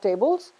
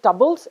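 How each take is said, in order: First: Tables as TAY-bles, with a full ay; full vowel. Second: Tables as tubbles, with a schwa; vowel reduction. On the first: Teacher naming the form to avoid, tables as TAY-bles. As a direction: give tables its whole ay sound. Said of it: "and not tables". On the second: Teacher contrasting the two endings, tables as tubbles. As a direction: shorten the first vowel of tables to uh. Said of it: "That is called vowel reduction". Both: Shown as a demonstration.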